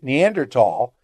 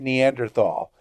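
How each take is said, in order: First: The word has its usual European pronunciation. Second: The word has its usual American pronunciation. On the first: "you end up pronouncing it Neanderthal because that's how they spell it in Europe" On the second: "here in the U.S., we say Neanderthal"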